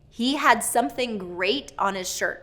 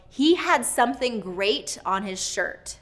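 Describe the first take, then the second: Both takes have the same delivery.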